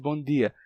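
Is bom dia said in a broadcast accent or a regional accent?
regional. It is said in the speaker's own regional accent. "em vez de bom dia"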